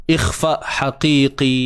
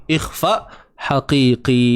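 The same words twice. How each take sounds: The two takes are said the same way.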